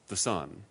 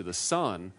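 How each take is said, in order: First: "sun" held long and leaned on; stress on sun. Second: Said in the usual way. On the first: Shown as a demonstration. Stressing that he means the star, not God's Son, lengthened "sun". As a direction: stretch "sun" to mean the star. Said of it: "not the S, O N, but the S U N". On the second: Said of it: "but literally the sun".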